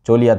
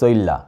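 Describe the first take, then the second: First: It is said in the standard literary Bengali form. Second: It is said in the eastern Bangladeshi dialect form. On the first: "চলিয়া থেকে" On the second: "থেকে চইল্লা"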